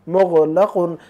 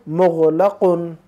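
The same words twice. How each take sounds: No difference in how they are said.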